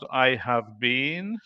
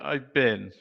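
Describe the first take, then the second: First: Every word is said fully, with a strong been. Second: It is contracted, with a weak reduced been. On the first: The speaker calls it wrong. "I would say not I have been" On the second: The speaker calls it right. "but probably I've been"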